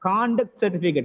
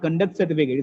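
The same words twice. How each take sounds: First: The stress is on the first syllable of conduct. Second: The stress is on the second syllable of conduct. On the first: The word is used as a noun. The speaker calls it right. "When it works as a noun or adjective, the first syllable is stressed" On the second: The word is used as a verb. The speaker calls it wrong.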